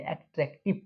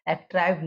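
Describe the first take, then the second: First: The last syllable has a short 'i' vowel. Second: The last syllable has a long 'eye' vowel. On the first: The speaker calls it right. "एट्रैक्टिव पढ़ेंगे यहाँ पर" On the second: The speaker calls it wrong. "एट्रैक्टिव नहीं"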